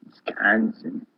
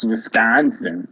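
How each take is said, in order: First: Slow, breathless whisper of "Wisconsin" with a falling end. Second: Put-on slow, drawn-out Wisconsin-accented "Wisconsin" with a falling end. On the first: Real, not acted. Repeats the state name again, whispered. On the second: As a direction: stretch out "Wisconsin" in a Midwest Wisconsin accent. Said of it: "you've got a very good Wisconsin accent".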